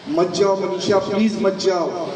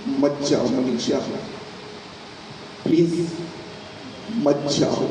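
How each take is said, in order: First: Urgent pleading. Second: Tearful plea. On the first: Husband she hopes will stop her leaving, pleading. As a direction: beg her urgently to stay. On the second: Husband with tears in his eyes begs wife, tearful. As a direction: beg weakly, broken up by pauses. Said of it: "उसकी आंखों में आंसू था". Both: Acted.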